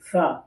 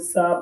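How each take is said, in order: First: The tongue sits between the teeth, giving th. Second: It starts with a plain hissing s sound. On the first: The speaker calls it right. "ज़बान जो है थोड़ा सा दांतों के आगे लाएं बाहर" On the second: The speaker calls it wrong. "बहुत से लोग सा पढ़ देते हैं"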